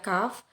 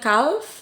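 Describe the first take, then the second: First: The L sound is silent. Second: The L sound is pronounced. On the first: The speaker calls it right. "ingat ya calf" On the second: The speaker calls it wrong. "bukan calf"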